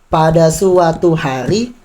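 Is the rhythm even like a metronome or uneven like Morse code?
even. Every syllable gets equal, even timing. "metronom ini seperti ya, contohnya pada suatu hari"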